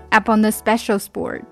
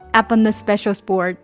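No difference in how they are said.

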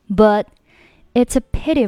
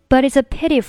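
First: There is a short pause after 'but'. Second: 'But' runs straight into 'it's' without pausing. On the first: "第一个简单的" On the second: "第二种稍微难一点的"

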